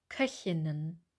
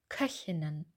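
The two takes are said the same way.

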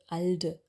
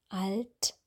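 First: The final consonant is a voiced d. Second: The final t is voiceless and hard. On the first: The speaker calls it wrong. "und kein D" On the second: The speaker calls it right. "dass wir wirklich ein stimmloses T aussprechen"

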